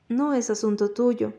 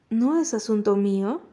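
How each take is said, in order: First: "No es asunto tuyo" as a statement, ending in a fall; understated rebuff, "tuyo" falling at the end; firm statement. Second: "No es asunto mío" thrown back as a question; understated challenge, "mío" rising at the end; echo question. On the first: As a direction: close "tuyo" with a falling, settled tune. Quarrel, statement echoed as question. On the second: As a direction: lift the tune on "mío" into a question. Echoes her rebuff as a question. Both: A narrator's reading.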